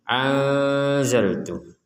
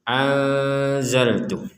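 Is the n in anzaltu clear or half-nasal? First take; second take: half-nasal; half-nasal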